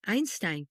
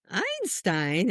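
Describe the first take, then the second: First: Matter-of-fact, softly falling single word; little boy's answer. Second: Drawn-out word with a questioning rise; mother's startled question. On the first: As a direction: state it simply, like a small child answering. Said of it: "And he goes". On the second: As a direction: echo the name in disbelief. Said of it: "and I'm like". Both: Retold or imitated.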